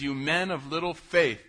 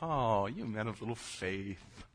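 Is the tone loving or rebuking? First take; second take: rebuking; loving. First: It is said in a sharp, rebuking tone. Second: It is said in a soft, loving tone.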